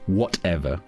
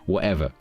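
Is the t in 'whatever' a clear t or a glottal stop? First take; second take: clear t; glottal stop. First: The t is clearly pronounced. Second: The t is replaced by a glottal stop. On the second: "That was a perfect natural example"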